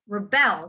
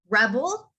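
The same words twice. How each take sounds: First: The stress is on the second syllable. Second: The stress is on the first syllable. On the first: It is a verb. "in the second word, I emphasize the bell" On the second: It is a noun. "I'm emphasizing reb in the first word"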